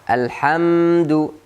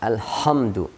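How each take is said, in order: First: The h is a soft sound from the throat. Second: The h is a harsh, scraping kh sound.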